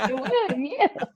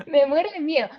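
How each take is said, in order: First: Said in the usual way. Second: Louder, stressing "muero"; insistent repeat; emphatic repeat. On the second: Real, not acted. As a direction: hit "Me muero de miedo" harder the second time.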